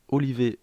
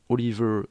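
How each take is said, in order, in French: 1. Le nom est prononcé à la française. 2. Le nom est prononcé à l'anglaise. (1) "je vais prononcer à la française" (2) "je sais pas comment on prononce"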